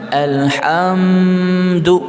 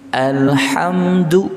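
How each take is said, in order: First: The m sound is held out for too long. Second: The m sound is short and moves straight on. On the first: The speaker calls it wrong. "jangan alhamdu, ah jangan" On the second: The speaker calls it right. "nggak boleh berlama-lama di mimnya. Alhamdu langsung"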